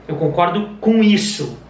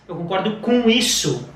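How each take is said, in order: The two takes are said the same way.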